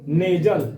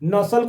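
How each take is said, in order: First: The middle consonant is a z sound. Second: The middle consonant is an s sound. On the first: The speaker calls it right. "उसका शुद्ध जो उच्चारण होगा" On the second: The speaker calls it wrong. "नसल कोई बोलता है"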